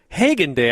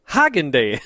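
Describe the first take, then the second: First: The name does not sound like Haagen-Dazs. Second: The name sounds like the first word of Haagen-Dazs. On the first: The speaker calls it right. "instead of saying Hagen Day" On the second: The speaker calls it wrong. "I was thinking Haagen-Dazs ice cream"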